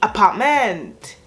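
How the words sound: The word is said with a Thai accent. The speaker calls it right. "putting it in a Thai accent"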